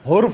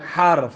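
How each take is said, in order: First: The first vowel is a 'u' sound. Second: The first vowel is an 'a' sound. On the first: The speaker calls it wrong. "हुर्फ नहीं" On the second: The speaker calls it right. "हा पे जबर"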